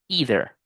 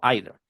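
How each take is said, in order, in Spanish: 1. La primera vocal suena como 'ee'. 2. La primera vocal suena como 'eye'. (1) "como esto sí larga, vamos a decirlo either" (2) "No either"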